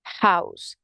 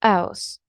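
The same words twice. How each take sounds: First: "house" with an audible H, lower pitch; H pronounced. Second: "house" opening on the bare vowel; H dropped. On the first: Teacher contrasts for learners, "house" with its H. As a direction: breathe the H into "house". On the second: Teacher contrasts for learners, "house" without its H. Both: Shown as a demonstration. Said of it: "Can you hear the difference?".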